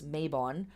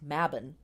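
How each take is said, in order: First: It uses the common American pronunciation. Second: It uses the original, non-American pronunciation. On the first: The speaker calls it wrong. "we in America here ha- often uh, pronounce this Mabon" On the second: The speaker calls it right. "the word is correctly pronounced Mabon"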